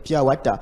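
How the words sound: It is said with a French accent. "on entend tout le temps des gens dire"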